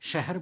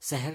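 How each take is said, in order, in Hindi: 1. यह शब्द sh ध्वनि से शुरू होता है। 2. यह शब्द साधारण s ध्वनि से शुरू होता है। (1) "आपको शहर बोलना पड़ेगा" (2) "शहर नहीं बोलोगे"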